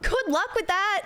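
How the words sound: It is said in a genuine tone.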